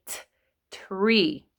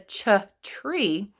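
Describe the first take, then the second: First: "t tree" begun with a clean t; correct t sound. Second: Put-on "ch tree" begun with a ch sound, like a child hears it; wrong ch sound. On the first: Teacher showing the kids the right t in tree. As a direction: separate the t, then say "tree" with a clear t. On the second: Teacher showing the kids the wrong ch in tree. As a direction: say "ch tree" the way a kid mishears it, ch at the front. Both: Shown as a demonstration. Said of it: "if you say the word slowly enough".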